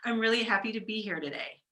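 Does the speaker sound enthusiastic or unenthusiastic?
enthusiastic. The voice sounds warm and enthusiastic. The speaker is genuinely happy to be there. "Same words, but you're defaulting differently"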